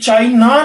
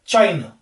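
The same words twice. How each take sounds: First: The word ends in a full, open 'ah' vowel. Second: The word ends in a short, weak 'uh' vowel. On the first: The speaker calls it wrong. "ये चाइना नहीं होता, आ आ नहीं होता" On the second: The speaker calls it right. "ये जो अ है"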